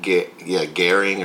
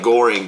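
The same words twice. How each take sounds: First: It has an odd, German-style rounded vowel. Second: It is read plainly, the way it looks spelled. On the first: The speaker calls it right. "but it's like, Göring or something like that" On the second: The speaker calls it wrong. "It looks like Göring"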